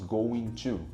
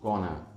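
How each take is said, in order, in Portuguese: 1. Cada som das duas palavras é pronunciado por completo. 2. As palavras são reduzidas e fundidas em uma só. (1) "não falamos going to, pronunciando os sons do going" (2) "sim gonna"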